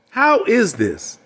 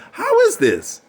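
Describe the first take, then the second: First: Slow, deliberate, and higher; drawn out, pressing the question; slow emphatic. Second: Asked far higher in mock disbelief; hammed-up high incredulity; incredulous high. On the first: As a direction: lean on each word slowly. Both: Shown as a demonstration.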